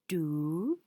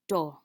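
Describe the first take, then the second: First: The vowel is a long oo sound. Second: The vowel is a short uh sound. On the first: "it makes the long vowel sound oo" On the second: "It makes the short vowel sound uh"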